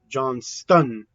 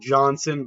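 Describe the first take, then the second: First: The name is said with a t sound. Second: The name is said without a t sound. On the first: The speaker calls it right. "I think it's pronounced Johnston" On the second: The speaker calls it wrong. "I was pronouncing it Johnson, but it's not pronounced Johnson"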